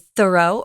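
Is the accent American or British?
American. It is said with an American accent.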